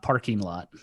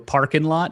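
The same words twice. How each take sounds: First: The final g of parking is pronounced. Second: The final g of parking is dropped. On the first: The speaker calls it wrong. "It's not parking lot" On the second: The speaker calls it right. "There's no G on the end"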